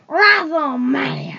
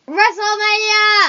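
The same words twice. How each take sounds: First: The word is said in a deep, growling voice. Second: The word is said with more force and energy. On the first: "That was a good growl" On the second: "Say that with some more gusto"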